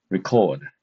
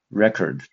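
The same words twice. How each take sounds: First: "record" stressed on the second syllable, as a verb; light start, then land firmly on the end of "record". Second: "record" stressed on the first syllable, as a noun. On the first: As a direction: say "record" as the verb, weight on the last syllable, falling. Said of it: "with a stress on the second". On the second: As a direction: hit the opening syllable of "record" and reduce the second. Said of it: "the stress is on the first syllable". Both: Shown as a demonstration.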